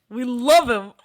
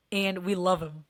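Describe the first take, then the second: First: Much louder, punching love; emphatic love. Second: Said in the usual way. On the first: Real, not acted. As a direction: say We love him with a loud punch on love. Repeat, louder.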